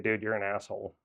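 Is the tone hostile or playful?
hostile. It sounds harsh and insulting. The insult is meant seriously. "it's one thing if you say"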